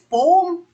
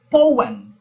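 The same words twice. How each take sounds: First: The word is said as one syllable. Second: The word is said as two syllables. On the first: The speaker calls it wrong. "Magagalit talaga 'yon pag ang pronunciation mo is poem" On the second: The speaker calls it right. "it's always two syllables"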